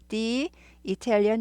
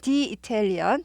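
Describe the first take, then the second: First: 'The' is said with a long 'ee' vowel. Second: 'The' is said with a short 'uh' vowel. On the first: The speaker calls it right. "Italian I가 모음이기 때문에" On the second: The speaker calls it wrong. "the Italian이 아니고"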